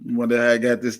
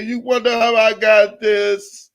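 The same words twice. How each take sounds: First: Said in the usual way. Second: High, gloating gossip-host voice; Wendy Williams. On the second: Acted. Blogger taunting Tasha K about a scoop, in a Wendy Williams voice. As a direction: tease it up high like a talk-show host with a scoop. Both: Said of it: "In my Wendy Williams voice".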